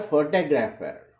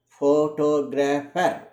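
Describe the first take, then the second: First: Said in the usual way. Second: "photographer" drawn out slowly, syllable by syllable, stressing "to". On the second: Shown as a demonstration. Teacher showing learners the word stress, "photographer" slowed, stress on "to". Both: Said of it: "the stress is on the syllable to".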